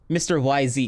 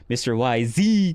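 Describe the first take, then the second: First: The Z is said without extra emphasis. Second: The Z is said with strong emphasis.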